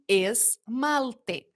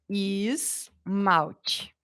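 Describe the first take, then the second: First: Every letter is pronounced as it is spelled. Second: The vowels are changed as in everyday speech. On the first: This is how the word is written. "Tá escrito esmalte" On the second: This is how people actually speak. "mas a gente fala esmalte"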